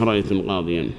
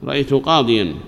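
First: "رأيت القاضيا" repeated softer and lower as the rejected version; wrong form. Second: "رأيت قاضيا" without the article, stressing قاضيا with nunation; correct form. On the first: Teacher to students, repeating the faulty form quietly. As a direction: murmur "رأيت القاضيا" as the example that doesn't work. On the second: Teacher to students, giving the correct form after the wrong one. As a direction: give "رأيت قاضيا" as the right answer, the tanween clear on قاضيا. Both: Shown as a demonstration. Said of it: "ما يصلح".

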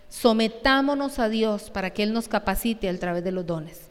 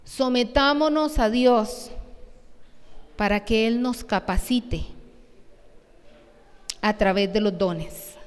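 First: Said in the usual way. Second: Slow, deliberate read of "Sometámonos a Dios"; slow, stressed recitation of the point; slow emphatic reading. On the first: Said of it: "dice el punto tres". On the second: Shown as a demonstration. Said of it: "dice el punto tres en las aplicaciones".

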